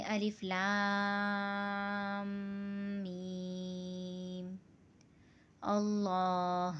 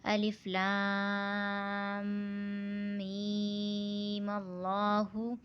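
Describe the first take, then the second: First: الف لام میم اللہ chanted slowly, اللہ closed off short at the end; recited with a stop. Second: الف لام میم اللہ chanted slowly with اللہ running on into اللہُ; recited without pause. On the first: Teacher chanting it with the pause sign observed. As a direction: stop on اللہ and take a breath. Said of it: "جیسے اب ہم اس کو وقف میں پڑھیں گے". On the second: Teacher chanting it joined before the stop. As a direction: keep اللہ open, rising, no stop. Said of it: "وقف سے پہلے ہمیں اس کو پڑھنا ہے". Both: Shown as a demonstration.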